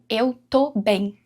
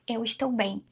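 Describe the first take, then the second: First: The verb is shortened to tô. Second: The verb is said in full as estou. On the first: The speaker calls it right. "na maioria das vezes, as pessoas, os brasileiros, vão falar como" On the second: The speaker calls it wrong. "As pessoas não falam assim"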